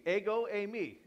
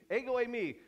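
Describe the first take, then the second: First: "Ego, eimi" said "AY-go AY-mee"; Greek pronunciation. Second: "Ego" pitched higher and punched; emphatic repeat. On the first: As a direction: say "Ego, eimi" steadily as a repeat. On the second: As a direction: hit "Ego" higher the second time. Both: Shown as a demonstration. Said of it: "So think of it this way".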